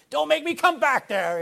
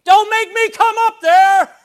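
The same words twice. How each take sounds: First: High, loud shouted warning; a parent's warning shout, loud and high; mock parent yell. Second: Very high, loud, slow shouted threat; parent yelling threat. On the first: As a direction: call it back over your shoulder like a fed-up parent. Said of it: "you know". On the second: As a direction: bellow it up the stairs like a fed-up parent. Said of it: "is not how you do it". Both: Shown as a demonstration.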